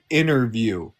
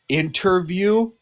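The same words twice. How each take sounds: First: The T sound in the middle is dropped. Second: The T sound in the middle is pronounced. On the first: "you just say interview" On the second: "you don't say interview"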